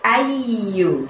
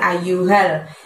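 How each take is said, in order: First: The y sound is held and doubled. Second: The y sound is short and single. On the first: The speaker calls it right. "harus dibaca double dua y ya ... tapi ayyu gitu ya" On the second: The speaker calls it wrong. "jangan ayyuhal"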